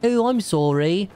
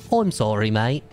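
First: Put-on high, slow English-accented apology; hammed-up polite British sorry; mock English apology. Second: Put-on English accent. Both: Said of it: "I'm English".

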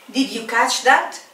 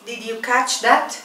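The two takes are said the same way.

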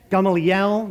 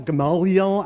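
First: "Gamaliel" as GAH-mah-lee-EL, rising at the end; alternative pronunciation. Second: "Gamaliel" as guh-MAH-lee-el; short first syllable, broad AH second in "Gamaliel"; alternative pronunciation. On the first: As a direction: open first syllable on "Gamaliel", GAH-ma-li-el. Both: Shown as a demonstration. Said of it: "I don't care how you pronounce it".

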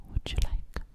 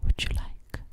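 No difference in how they are said.

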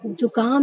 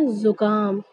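First: जुकाम mispronounced as "jukaam"; j sound in जुकाम. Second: जुकाम as "zukaam", buzzing z; z sound in जुकाम. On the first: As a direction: start जुकाम on a j. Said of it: "नहीं पढ़ सकते". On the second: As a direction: model जुकाम with z and plain k. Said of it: "बोलने का सही तरीका क्या होगा". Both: Shown as a demonstration.

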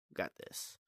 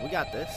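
First: Whispering. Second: Said in the usual way. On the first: Real, not acted.

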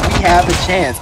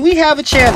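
First: Said in the usual way. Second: High excited squeal; shrieking jackpot winner. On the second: Real, not acted. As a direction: shriek it with sudden hope. Sudden comeback, team is winning.

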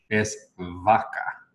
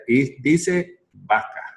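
First: "vaca" slowly with a hard b sound; slow demo of "vaca" in a heavy Spanish accent; strong accent vaca. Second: Slow careful v in "vaca"; proper v in vaca. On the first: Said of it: "en mi acento fuerte". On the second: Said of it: "mis labios son abiertos". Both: Shown as a demonstration.

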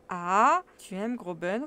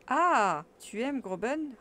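First: Loud exclamation, said on autopilot; mechanical repeat. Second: Loud, high startled exclamation; shocked guardian demanding an answer; guardian's tone. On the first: Absent-minded uncle repeating the question mechanically, loud. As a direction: repeat it absently, mind elsewhere. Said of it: "reprit-il machinalement". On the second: Uncle startled by his nephew's confession, loud and high. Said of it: "d'un véritable ton de tuteur". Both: Acted.

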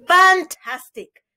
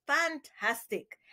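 First: Excited exclamation. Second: Hushed delight. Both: A narrator's reading. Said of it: "exclaimed Parson Drunkrow".

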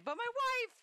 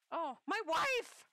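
First: "wife" punched much higher and louder, falling; "my wife!" with a high falling stress on "wife"; emphatic "wife". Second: High, slow swoon on "wife"; "wife" drawn out high and rising; swooning over wife. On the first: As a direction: hit "wife" hard and high, like a correction. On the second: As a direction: stretch "wife" out like a lovestruck sigh. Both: Acted.

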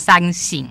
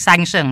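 First: "ซันสิง" with second syllable xing; usual compound reading. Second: "ซันเซิง" with second syllable sheng; alternative character reading. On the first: Translator showing how the pair is usually read, xing pronunciation. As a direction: say "ซันสิง", ending in an ing sound. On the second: Translator showing the reading he wrongly chose, sheng pronunciation. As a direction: say "ซันเซิง", ending in an eng sound. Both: Shown as a demonstration. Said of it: "มักจะอ่านว่าซันสิง".

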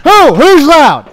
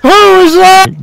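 First: Loud. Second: Slow, loud and high; slow mock shout. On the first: Real, not acted. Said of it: "you're loud". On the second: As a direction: draw out each word, yelling. Mock challenge, slowed and shouted.

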